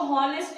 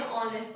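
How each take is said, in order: First: हॉनेस्ट said with a clear h sound at the start; हॉनेस्ट with a breathy h before the o; wrong pronunciation with h. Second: ऑनेस्ट said starting straight on the o sound, no h; ऑनेस्ट with a silent h, vowel first; correct silent h. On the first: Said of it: "इसको हॉनेस्ट नहीं पढ़ते हैं". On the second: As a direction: drop the h in ऑनेस्ट and open on the vowel. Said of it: "ऑनेस्ट पढ़ते हैं". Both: Shown as a demonstration.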